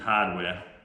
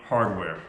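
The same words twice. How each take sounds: First: It is said in a Northeastern American accent. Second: It is said in a general American accent.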